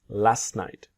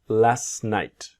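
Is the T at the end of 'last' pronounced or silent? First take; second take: silent; silent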